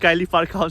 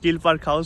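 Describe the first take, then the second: First: The first word sounds like 'Kylie'. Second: The first word sounds like 'Keel'. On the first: The speaker calls it wrong. "it's not Kylie Park House" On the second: The speaker calls it right. "it's Keel Park House"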